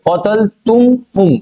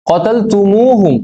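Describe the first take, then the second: First: "কতল তুম হুম" said slowly, with "তুম" and "হুম" clashing at the m-h join; slow demo of the hard "তুম হুম" without the linking vowel; awkward unsmoothed form. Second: "কতল তুমু হুম" drawn out slowly, with an added u after "তুম" gliding into "হুম"; slow demo of "তুমু হুম" flowing smoothly; smoothed with extra u. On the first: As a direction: show how clumsy "কতল তুম হুম" sounds, slowly, in a teacher's demo. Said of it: "একে যে pronounce করতে অসুবিধা হবে". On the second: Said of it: "একটা extra ওয়াও আর একটা extra পেশ". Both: Shown as a demonstration.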